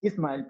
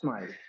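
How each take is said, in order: First: An extra vowel sound comes before the s. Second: The word starts directly with the s sound. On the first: The speaker calls it wrong. "they will say" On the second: The speaker calls it right. "and not smile"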